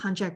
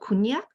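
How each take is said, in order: First: The word is said with a Western pronunciation. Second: The word is said with a Japanese pronunciation. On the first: "different pronunciation, Western and East" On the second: "in Japanese, it's called kunyak"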